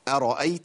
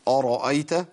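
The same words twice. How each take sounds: First: The opening glottal stop is light and thin. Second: The opening glottal stop is heavy and thick. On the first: The speaker calls it right. "الهمزه مرققه" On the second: The speaker calls it wrong. "ما قلتش ارايت"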